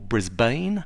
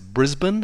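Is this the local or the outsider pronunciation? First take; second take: outsider; local. First: The name is said the way outsiders say it. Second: The name is said the way locals say it. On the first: The speaker is from out of town. The speaker calls it wrong. "not Melbourne or Brisbane" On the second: The speaker is from the area. The speaker calls it right. "you pronounce it Brisbane"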